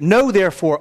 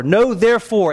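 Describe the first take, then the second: First: Said in the usual way. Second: "therefore" pitched higher and leaned on; stress on therefore. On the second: Shown as a demonstration. Pastor stressing "therefore" for the church, leaning on it. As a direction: underline "therefore" with the voice. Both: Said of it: "underline that word".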